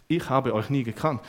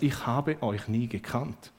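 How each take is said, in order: First: Said in the usual way. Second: Slow, weighty words; slow solemn verdict. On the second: Shown as a demonstration. Jesus rejecting the workers, slow solemn verdict. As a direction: let each word fall heavily.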